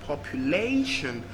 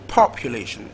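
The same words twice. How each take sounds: First: The stress is on the third syllable. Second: The stress is on the first syllable. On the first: "third syllable" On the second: "First syllable"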